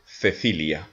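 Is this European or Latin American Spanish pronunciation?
European. It is said with a European Spanish accent. "mais en Espagne, on va prononcer Cecilia"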